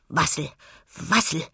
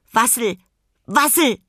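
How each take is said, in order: First: Pinguin murmelt vor sich hin; geschäftiges Murmeln. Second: Hohe, laute Pinguinrufe; rufender Pinguin. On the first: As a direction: murmle es beschäftigt als kleines Tier. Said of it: "murmelte er geschäftig". (geschäftig murmelnde Pinguinstimme) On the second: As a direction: ruf es hoch als kleines Tier. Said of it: "rief er". (laut rufende Pinguinstimme) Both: A narrator's reading.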